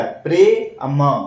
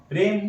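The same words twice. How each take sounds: First: प्रे अम split into two slow parts; slow syllable-by-syllable reading; sounded out slowly. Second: प्रेम said as one smooth word; joined correct word. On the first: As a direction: read प्रे then अम, slowly apart. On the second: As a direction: blend it into प्रेम. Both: Shown as a demonstration. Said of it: "तो क्या बन गया".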